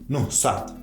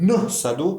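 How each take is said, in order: First: The stress is on the last syllable. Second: The stress is on the first syllable. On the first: "дар ҳиҷоҳои охирашон зада доранд" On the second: "ҳиҷои дигари онҳо заданок талаффуз мешавад"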